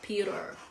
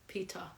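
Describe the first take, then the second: First: The middle t is a soft flap, American. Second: The t is crisp and the r dropped, British. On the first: "in American English, they say the R instead of the T" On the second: "We're using British accent"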